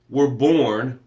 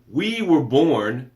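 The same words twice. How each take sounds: First: Said in the usual way. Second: Slow, weighty, every word held out; slow emphatic. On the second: Shown as a demonstration. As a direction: land it slowly for weight. Repeats line, then slows it.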